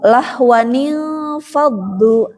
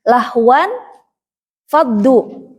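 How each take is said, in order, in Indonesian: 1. Bunyi sambungan nil menghubungkan kedua kata. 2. Kedua kata menyatu tanpa bunyi sambungan.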